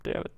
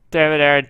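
First: Said in the usual way. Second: Loud frustrated curse; real gamer rage, louder; angry yell. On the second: Real, not acted. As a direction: bark it at the screen.

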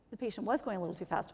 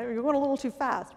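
First: Said in the usual way. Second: Lightly voiced patient answer, a touch louder and higher; voicing a patient's answer, slightly raised; quoting the patient. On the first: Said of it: "which was absolutely right". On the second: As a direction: say it as the patient's quick reply. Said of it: "patient's answer quoted".

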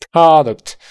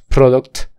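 First: PRODUCT with an open AH, "PRAH-duct"; correct open vowel. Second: PRODUCT with a rounded O, "PRO-duct"; wrong O vowel. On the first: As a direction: punch the open AH in PRODUCT high and loud. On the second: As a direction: say PRODUCT with O instead of AH. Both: Shown as a demonstration. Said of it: "No es product".

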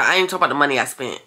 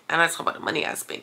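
First: Said in the usual way. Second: Whispered, softer, quick; a fast whisper, half to herself; whispered aside. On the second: Real, not acted. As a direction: drop to a whisper mid-rant.

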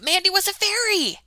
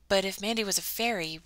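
First: High, loud cry of discovery; excited realization. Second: Said in the usual way. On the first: Acted. Ella realizing Mandy is a fairy, exclaiming high and loud. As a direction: burst out with sudden wonder.

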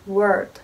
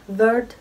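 First: "Word" with a rounded W glide, no V; correct pronunciation. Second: "word" with a Turkish V onset; wrong pronunciation. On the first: Teacher giving the English W sound. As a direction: start "Word" with round lips, no teeth. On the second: Teacher imitating the Turkish learner's V. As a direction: say "word" as "vörd". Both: Shown as a demonstration. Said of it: "Bu kelime word değil".

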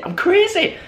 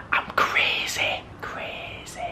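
First: High-pitched crazed exclamation; playful manic squeal; excited outburst. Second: Slow, hushed whisper fading away; playful mad whisper; crazed whisper. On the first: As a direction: burst out high, as if losing it. Hyping himself up over prizes. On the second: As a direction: whisper it slowly, trailing into almost nothing. Mock-crazy aside after outburst. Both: Pretend.

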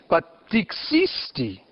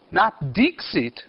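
First: Dixisti slow and pointed, each syllable clear; stress on dixisti. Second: Slow, stressing dixit as the wrong form; contrast stress. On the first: Teacher correcting students on the verb, slow stressed dixisti. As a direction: lean on dixisti slowly. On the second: Teacher contrasting Latin verb forms, slow stress. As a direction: dixit said slowly as the form to reject. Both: Shown as a demonstration.

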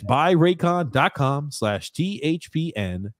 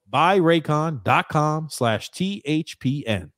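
First: Slow, spelled-out promo code; deliberate ad-read pace. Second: Slow, spelled-out code once more; careful ad-read delivery; slow promo read. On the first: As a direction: spell the code out slowly for listeners. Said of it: "repeating promo code slowly". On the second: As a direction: read the web address slowly. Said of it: "third repeat of promo code". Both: Acted.

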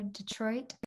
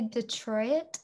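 First: Detroit as two syllables, de-TROIT. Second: Detroit as three syllables, de-TROY-it. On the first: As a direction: keep Detroit's ending as one syllable, TROIT. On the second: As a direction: split the end of Detroit into TROY-it. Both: Shown as a demonstration. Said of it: "Do you say Detroit or Detroit".

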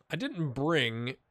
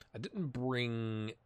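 First: Said in the usual way. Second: Slow soft whisper. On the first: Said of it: "repeats the phrase". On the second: Shown as a demonstration. Retrying his sentence to viewers, slow hushed whisper. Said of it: "repeats the phrase whispered".

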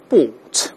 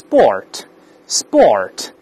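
First: British sport, long aw with no r; British pronunciation. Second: American sport, tongue hooked back for the r; American pronunciation. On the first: Teacher shows how British people say it, British r-less sport. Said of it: "英国人都是sport". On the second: Teacher shows how Americans say it, American r in sport. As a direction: say sport slowly the American way, r sounded. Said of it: "最后要把舌头勾回来". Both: Shown as a demonstration.

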